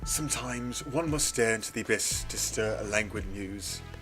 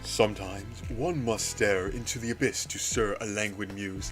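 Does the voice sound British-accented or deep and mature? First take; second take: British; deep. First: The voice uses a put-on British accent. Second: The voice is deep and mature-sounding. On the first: The speaker calls it wrong. "No, that's not his voice" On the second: The speaker calls it right. "It's more deep and mature"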